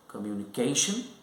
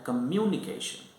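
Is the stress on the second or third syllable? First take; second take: third; second. First: The stress is on the third syllable. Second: The stress is on the second syllable. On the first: "the stress on the third syllable" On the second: "here the stress is on the second syllable"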